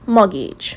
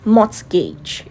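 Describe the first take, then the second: First: The T sound is left silent in the word. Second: The T sound is pronounced in the word. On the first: The speaker calls it right. "The T in this word is silent" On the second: The speaker calls it wrong. "so you don't say mortgage"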